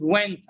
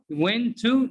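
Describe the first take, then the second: First: "went" as one word, "wenta"; weak "tuh" ending run onto "went"; reduced pronunciation. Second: "Went to" with a full "too", questioning; higher, doubting full-form "Went to"; unreduced wrong example. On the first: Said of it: "It's pronounced". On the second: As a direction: separate "Went to" into two words, voice rising. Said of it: "No, it's not". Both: Shown as a demonstration.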